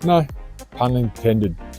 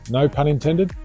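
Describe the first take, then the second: First: There is a pause after "no". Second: There is no pause after "no". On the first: The pun was meant. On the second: The pun was not meant.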